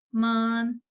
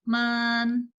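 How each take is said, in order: First: The syllable is long with a high level tone. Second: The syllable is long with a high level tone.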